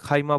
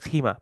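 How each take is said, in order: First: The first vowel is the diphthong 'ai'. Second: The first vowel is a plain 'ee'. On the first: This is the formal standard Arabic form. "ফুসহাতে খাইমা বলে" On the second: This is the colloquial dialect form. "ওদের ডায়ালেক্টে বলে খিমা"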